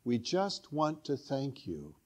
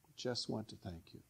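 First: Soft translation. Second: Repeats the words very softly; quiet repeat. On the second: Preacher echoing the translation softly to the congregation. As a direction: let it fall to a hushed echo. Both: Shown as a demonstration. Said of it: "It translates".

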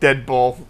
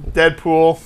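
First: Deadpool with the second vowel opened to "pawl"; slip on Deadpool. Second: Said in the usual way. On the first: Real, not acted. Slips on the title, then corrects.

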